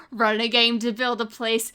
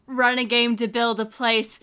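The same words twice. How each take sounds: The two takes are said the same way.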